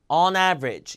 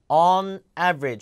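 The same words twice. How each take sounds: First: The two words are linked together. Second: The two words are said separately. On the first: The speaker calls it right. "붙여서" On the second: The speaker calls it wrong. "붙여서 on average가 아니라"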